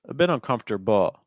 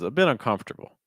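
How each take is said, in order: First: The final syllable is said strongly, with even weight. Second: Comf is stressed and the final syllable is weak. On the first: The speaker calls it wrong. "I would go weaker on the bull at the end" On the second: The speaker calls it right. "I would go heavier on comf and then weaker on everything else"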